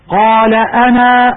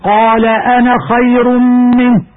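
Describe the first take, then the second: First: أنا with its final alif drawn out at the stop; pausal reading. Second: أنا read with a short a in connected speech; joined reading. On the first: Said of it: "عند الوقف". (إثبات ألف أنا عند الوقف) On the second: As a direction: drop the final alif of أنا while joining it to خير. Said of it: "ويجب حذفها لفظا في الوصل". (حذف ألف أنا في الوصل) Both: Shown as a demonstration.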